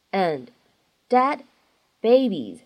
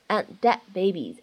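First: Said in the usual way. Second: "and dead babies" joined, both final d sounds unreleased; loss of plosion. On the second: Shown as a demonstration. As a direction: hold back the d in "and" and "dead" in "and dead babies". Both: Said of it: "存在两处失去爆破的技巧".

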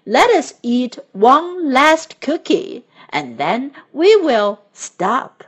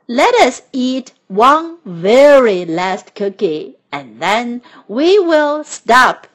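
First: Said in the usual way. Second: Slow, loud, insistent plea; louder pleading. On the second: A narrator's reading. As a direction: beg for one more. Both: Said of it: "said Toad".

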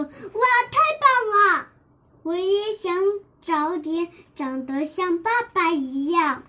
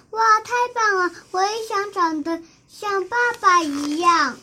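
First: Thrilled wonder. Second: Higher, fast and bright wonder; excited admiration. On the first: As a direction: burst out in delight. (高声兴奋惊叹) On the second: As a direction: gasp in delight at dad. (兴奋地惊叹) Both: Acted. Child admires father's skills.

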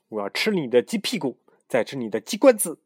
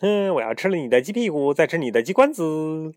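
First: Crazed shout. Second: High crazed yelling; crazed shout. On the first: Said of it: "嘶喊道". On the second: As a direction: yell it like a madman. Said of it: "还继续喊". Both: Acted.

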